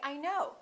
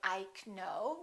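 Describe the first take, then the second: First: The K at the start is not pronounced. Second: The K at the start is pronounced. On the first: The speaker calls it right. "the K is silent" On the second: The speaker calls it wrong. "We don't say"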